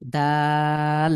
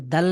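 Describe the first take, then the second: First: দাল with a long, level aa before the l; correct long vowel. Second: দাল with the final l held long; short vowel, then a stretched l in দাল; wrong drawn-out ending. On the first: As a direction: stretch the vowel of দাল, not the l. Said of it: "না, এটা হলো". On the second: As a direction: linger on the l of দাল instead of the vowel. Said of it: "লতে গিয়ে টানে". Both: Shown as a demonstration.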